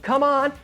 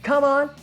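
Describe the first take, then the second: No difference in how they are said.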